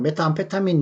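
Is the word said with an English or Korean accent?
Korean. It is said with Korean-style pronunciation. "우리나라 말로는 그렇다는 메타암페타민 뭐 이렇게 발음을 하겠죠"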